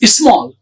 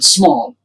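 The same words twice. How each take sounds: First: An extra i sound comes before the s. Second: The word starts directly with the s sound. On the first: The speaker calls it wrong. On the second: The speaker calls it right.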